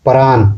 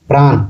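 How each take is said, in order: Both takes have the same delivery.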